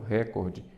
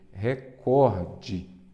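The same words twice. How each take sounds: First: The stress is on the first syllable. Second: The stress is on the second syllable. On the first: The speaker calls it wrong. "vi um jornalista falando recorde" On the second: The speaker calls it right. "ela é uma paroxítona"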